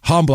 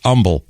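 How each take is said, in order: First: The word begins with a sounded H. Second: The word begins without any H sound. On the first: This is the established pronunciation of the word. The speaker calls it right. "and it is humble" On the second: This is how local people say the town's name. The speaker calls it wrong. "it's humble locally"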